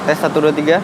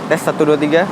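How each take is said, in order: The two takes are said the same way.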